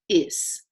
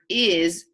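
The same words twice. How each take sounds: First: The word ends with a hissing S sound. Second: The word ends with a buzzing Z sound. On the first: The speaker calls it wrong. "so you don't say is" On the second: The speaker calls it right. "the S pretends to be a Z"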